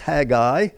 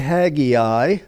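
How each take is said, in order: First: The name is said with two syllables. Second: The name is said with three syllables. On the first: The speaker calls it right. "two syllables" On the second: The speaker calls it wrong. "don't say Haggai"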